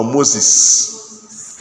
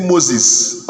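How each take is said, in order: First: Moses ending in a long s; hissed S ending. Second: Moses ending in a z sound; voiced ending. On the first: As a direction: say Moses with a hissing close. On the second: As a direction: say Moses with a buzzed close. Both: Shown as a demonstration. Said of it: "Does S end it?".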